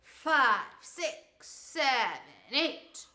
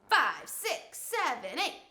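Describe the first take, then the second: First: It is counted slowly, stretched out. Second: It is counted at a medium pace.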